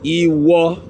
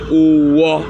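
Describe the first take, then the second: First: It is said in Oyo Yoruba, starting with i. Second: It is said in the eastern dialect, starting with u.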